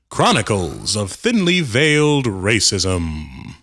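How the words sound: It is said in a booming announcer voice.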